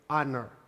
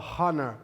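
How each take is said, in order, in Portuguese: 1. A palavra começa direto com um som de vogal. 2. A palavra começa com um som de h aspirado. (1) "eu digo honor" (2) "Eu não falo honor"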